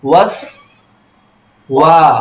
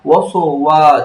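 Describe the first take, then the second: First: The first s closes the syllable without vowel. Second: A short vowel follows the first s sound. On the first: The speaker calls it right. "ঠোঁট দুইটা ছড়িয়ে যাবে direct" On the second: The speaker calls it wrong. "এমন যা না হয়"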